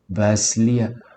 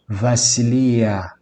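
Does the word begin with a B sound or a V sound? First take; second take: B; V. First: The word begins with a B sound. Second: The word begins with a V sound. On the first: "o B ele é vocalizado muitas vezes como V" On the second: "você vai ouvir muito essa forma sendo pronunciada"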